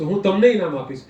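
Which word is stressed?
તમને. The stress falls on the second word. It answers who will receive the prize. "તમે કોને ઇનામ આપશો"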